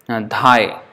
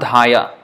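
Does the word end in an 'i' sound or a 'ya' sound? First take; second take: i; ya. First: The word ends in 'i' with no final vowel. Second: The word ends with an extra 'ya' syllable. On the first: The speaker calls it right. "So the last A is not pronounced" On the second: The speaker calls it wrong. "it's not dhaya"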